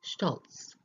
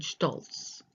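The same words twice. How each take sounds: First: "stolz" breathed without voice, short O, ts ending; teacher repeats "stolz" as a whisper. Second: "stolz" with a short open O and ts ending; teacher models "stolz" for learners; demonstrated word. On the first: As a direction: whisper "stolz" once more, crisp ts. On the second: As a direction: say "stolz" as shtolts, short and crisp. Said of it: "Then we have the short O". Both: Shown as a demonstration.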